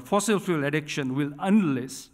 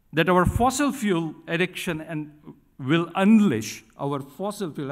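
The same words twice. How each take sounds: First: Emphatic repeat pressing "fossil fuel addiction will unleash"; stressed words. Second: Said in the usual way. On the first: Shown as a demonstration. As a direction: lean hard on "fossil" and "unleash", each word deliberate. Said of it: "I'm stressing that word". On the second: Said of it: "stressing that word".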